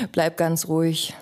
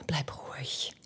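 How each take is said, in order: First: Said in the usual way. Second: Breathless hush, barely audible; whisper. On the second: Acted. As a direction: hush him with a near-silent whisper. Calming him, then repeating.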